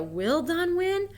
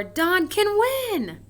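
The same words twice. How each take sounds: First: Slow, higher, asking it; questioning. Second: Slow, higher, louder, stressing can; excited exclamation. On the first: Teacher contrasting question with exclamation, asking. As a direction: ask it as a real question. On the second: Teacher contrasting question with exclamation, excitedly. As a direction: declare it proudly. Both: Shown as a demonstration. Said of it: "so you change the wording".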